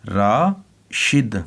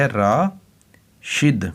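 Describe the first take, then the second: The two takes are said the same way.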